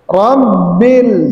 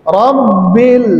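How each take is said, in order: The two takes are said the same way.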